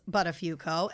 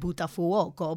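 First: The name is said the American way. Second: The name is said the Italian way.

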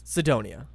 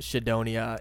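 First: The name is said with English pronunciation. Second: The name is said with Japanese pronunciation. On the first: "But it's Sidonia" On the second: "I know that it's pronounced Sidonia in Japanese"

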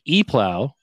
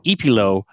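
First: It sounds like the letter E plus 'plow'. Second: It does not sound like letter E plus 'plow'. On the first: It suggests an electronic plow. "Eplow sounds like you're an electronic plow" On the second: It suggests a hip DJ name. "Eplow makes me sound like you're like a hip like DJ"

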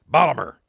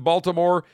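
First: It is said in a local Baltimore accent. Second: It is said with standard American pronunciation.

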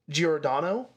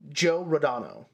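First: The name flows smoothly as one word. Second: The name is split into two parts. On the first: The speaker calls it right. "it should be Giordano Bruno" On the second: The speaker calls it wrong. "they pronounce it Joe Rodano is how they show it"

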